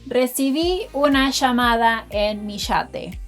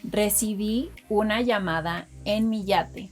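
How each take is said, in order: First: It is said in an Argentine accent. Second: It is said in a general Spanish accent.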